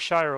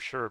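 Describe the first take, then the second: First: It sounds like the word shire, as in the Shire. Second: It does not sound like the word shire. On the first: The speaker calls it right. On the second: The speaker calls it wrong.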